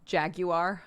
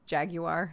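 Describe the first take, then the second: First: It is said in the British way. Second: The same.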